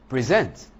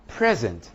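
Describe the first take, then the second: First: "present" with the second syllable stressed. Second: "present" with the first syllable stressed. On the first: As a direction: hit the end of "present", as the verb. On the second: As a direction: hit the start of "present", as the noun. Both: Shown as a demonstration. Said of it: "One is a verb, the other is a noun".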